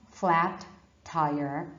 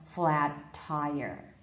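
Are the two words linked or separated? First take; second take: separated; linked. First: The t sound is said twice, words separated. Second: One held t sound links the two words. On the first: The speaker calls it wrong. "Not flat tire" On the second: The speaker calls it right. "but flat tire"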